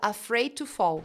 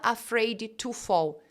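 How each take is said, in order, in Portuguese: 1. O D de afraid é omitido completamente. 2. O D de afraid é claramente pronunciado. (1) "Você tira esse D completamente" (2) "você não fala afraid to fall"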